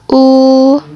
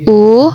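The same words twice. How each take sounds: First: The vowel carries the first tone. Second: The vowel carries the second tone. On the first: "Nada pertama" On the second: "nada kedua"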